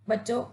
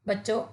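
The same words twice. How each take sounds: The two takes are said the same way.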